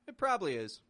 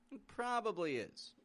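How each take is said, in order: First: The middle vowel of probably is dropped. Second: The middle vowel of probably is fully pronounced. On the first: The speaker is confident about the claim. "if we drop that vowel from the middle" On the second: The speaker has some doubt about the claim. "there's a little twenty percent doubt on there when we say it like that"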